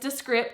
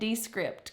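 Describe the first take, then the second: First: The stress is on the second syllable. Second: The stress is on the first syllable. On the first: The speaker calls it right. "it's Descript because I had to Google it" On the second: The speaker calls it wrong. "my southern butt likes to enunciate the first parts of words"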